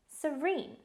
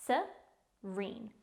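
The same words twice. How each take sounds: First: Said in the usual way. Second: "Serene" in two separate beats, se, reen; careful, divided "Serene" for learners; syllable by syllable. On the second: Shown as a demonstration. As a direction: pause inside "Serene" after the first syllable. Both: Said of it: "It's pronounced".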